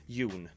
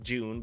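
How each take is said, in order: First: The word begins with a Y sound. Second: The word begins with a J sound. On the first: "in Swedish it would pronounce June" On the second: "It should be pronounced June"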